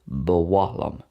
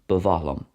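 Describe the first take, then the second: First: The middle consonant is a W sound. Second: The middle consonant is not a W sound.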